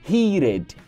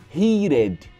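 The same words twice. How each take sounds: No difference in how they are said.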